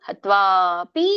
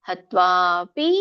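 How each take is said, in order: No difference in how they are said.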